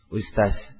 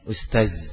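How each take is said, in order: First: The final consonant is a hissing 's' sound. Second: The final consonant is a voiced 'dh' sound. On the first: The speaker calls it wrong. "Akhirnya keliru, lebih parah lagi jadi apa? Jadi sin" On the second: The speaker calls it right. "Awalnya ustaz"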